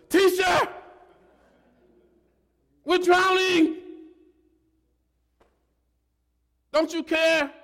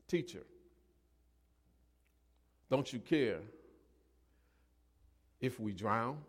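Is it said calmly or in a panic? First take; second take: in a panic; calmly. First: It is said urgently, in a panic. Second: It is said calmly and plainly.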